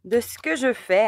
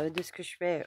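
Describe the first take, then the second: First: "de ce que je fais" said again louder and higher, falling on "que"; emphatic repeat. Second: Said in the usual way. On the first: Real, not acted. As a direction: punch "que" in "de ce que je fais" as an exasperated restatement. Repeats phrase after Oula.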